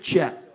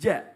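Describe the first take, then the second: First: The j sound is overdone and exaggerated. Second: The j sound is clear and plain. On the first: The speaker calls it wrong. "jangan sampai ja" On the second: The speaker calls it right. "tapi ja. Jelas hurufnya"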